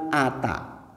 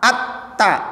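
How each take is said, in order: First: The t sound is short and single. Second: The t sound is held and doubled. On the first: The speaker calls it wrong. "bukan ata" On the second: The speaker calls it right. "bukan ata"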